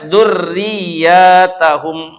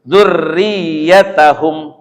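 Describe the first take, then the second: First: The vowel after the double y is long. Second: The vowel after the double y is short. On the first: It is read as a plural word. "Ini dikatakan dipanjangkan ya-nya" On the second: It is read as a singular word. "kalau kita kan biasanya apa?"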